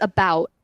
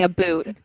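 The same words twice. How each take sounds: First: "about" with an open American ow; corrected pronunciation. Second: "a boot" with a long oo; mimicked mispronunciation. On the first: Shown as a demonstration. Friend corrects Canadian, saying "about" with open ow. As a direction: say "about" to rhyme with out. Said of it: "You're literally, it's about". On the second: Friend teases Canadian's accent, mimicking "a boot" with oo. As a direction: mimic "a boot" to rhyme with shoot. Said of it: "You're literally saying a boot".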